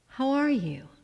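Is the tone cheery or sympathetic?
sympathetic. It is said in a lower, caring tone.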